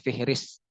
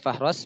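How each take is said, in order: First: The word is said with vowels i then i. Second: The word is said with vowels a then o. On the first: "bisa dibaca Fihris" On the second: "bisa dibaca Fahros"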